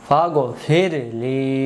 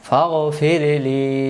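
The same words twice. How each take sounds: No difference in how they are said.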